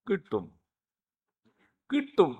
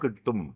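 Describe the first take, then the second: First: It is said in a mocking, sarcastic tone. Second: It is said in a plain, sincere tone. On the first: You will not catch the train. "ഓട്ടോക്കാരൻ കിട്ടൂല എന്നാ ഉദ്ദേശിച്ചേ" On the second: You will catch the train. "ഒരാൾ പറഞ്ഞു കിട്ടും"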